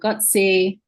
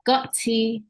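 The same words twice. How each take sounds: First: The word is said with an American accent. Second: The word is said with a British accent. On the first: "as an American way" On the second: "is a British way of saying it"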